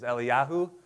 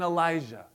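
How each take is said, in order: First: The name ends with a 'yahu' sound. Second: The name ends with a 'jah' sound. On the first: This is the original form of the name. "if you really wanted to pronounce them correctly" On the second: This is the common everyday form of the name. "That's how we say them"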